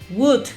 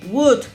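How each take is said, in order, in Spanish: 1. La L es muda al final. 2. La L es muda al final.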